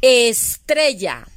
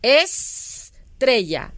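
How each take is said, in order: First: Estrella said slowly and clearly; slow example. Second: Estrella very slow, es-tre-lla; syllable demo. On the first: Teacher giving pupils estrella slowly. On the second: Teacher to pupils, Estrella in syllables. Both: Shown as a demonstration. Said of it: "Inicia con la sílaba es".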